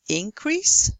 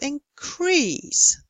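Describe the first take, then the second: First: The stress is on the first syllable. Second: The stress is on the second syllable. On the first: It is used as a noun. "if you have a noun" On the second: It is used as a verb. "with the stress on the second syllable"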